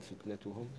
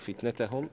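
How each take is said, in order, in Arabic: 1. الحركة قبل -hum ضمة قصيرة 'u'. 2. الحركة قبل -hum فتحة قصيرة 'a'.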